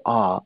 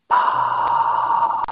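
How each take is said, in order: First: Said in the usual way. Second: Long voiceless whispered ah; open-mouthed sigh of whispered breath, held long. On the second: Shown as a demonstration. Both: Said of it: "So whisper".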